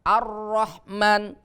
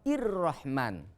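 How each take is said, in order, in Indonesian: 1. Kata ini dimulai dengan vokal a. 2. Kata ini dimulai dengan vokal i. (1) "al kalau ada lam berarti dibacanya hamzah fathah" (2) "Tidak boleh"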